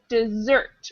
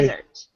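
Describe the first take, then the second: First: The stress is on the second syllable. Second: The stress is on the first syllable. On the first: The sweet eaten after dinner. "dessert with stress on the second syllable" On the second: A dry place with cactuses and mountains. "That's desert with an a stress on the first syllable"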